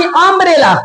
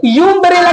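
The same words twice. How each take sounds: First: अम्ब्रेला opening with a short "uh" sound; short-vowel pronunciation. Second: यूम्ब्रेला opening with a "yoo" sound; spelling-based mispronunciation. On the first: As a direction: begin अम्ब्रेला on "um", not "yoom". (अम्ब्रेला की शुरुआत छोटे 'अ' से) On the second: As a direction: read the first letter of यूम्ब्रेला as "yoo". (यूम्ब्रेला की शुरुआत 'यू' से, गलत उच्चारण) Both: Shown as a demonstration. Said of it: "यूम्ब्रेला की अम्ब्रेला".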